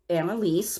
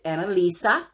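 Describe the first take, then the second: First: The name has three syllables, ending in 'leese'. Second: The name has four syllables, ending in 'leesa'. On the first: This is how the spelling suggests reading it. "this is how it's spelled" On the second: This is how the owner of the name says it. "she pronounces it Annalisa"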